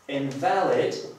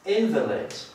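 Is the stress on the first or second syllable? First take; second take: second; first. First: The stress is on the second syllable. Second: The stress is on the first syllable. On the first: It means not valid. "Jeżeli zaakcentuję tutaj słówko na drugą sylabę, będę miał do czynienia z przymiotnikiem, oznacza nieważny" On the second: "invalid oznacza niepełnosprawny"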